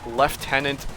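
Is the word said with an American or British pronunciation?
British. It is said with a British pronunciation. "over in Britain"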